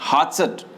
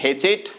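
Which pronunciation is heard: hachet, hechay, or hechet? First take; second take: hachet; hechet. First: The word has an 'a' vowel and a final t. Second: The word has an 'e' vowel and a final t. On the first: The speaker calls it right. "सही pronunciation क्या होता है इसका" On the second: The speaker calls it wrong. "कई लोग बोलेंगे हेचेट"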